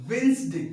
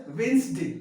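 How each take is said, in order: Both takes have the same delivery.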